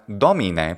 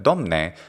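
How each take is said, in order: First: A vowel is heard between m and n. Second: No vowel is heard between m and n. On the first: It is the more formal form. "not domine" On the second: It is the less formal everyday form. "but domne"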